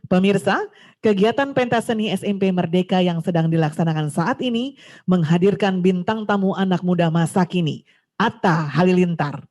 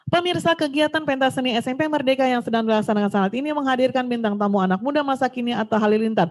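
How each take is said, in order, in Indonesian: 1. Dibacakan dengan tempo yang teratur dan diselingi jeda. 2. Dibacakan dengan tempo yang tidak rata dan tidak terkendali. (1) "Mana yang pas?" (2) "kalau tidak memperhatikan tempo"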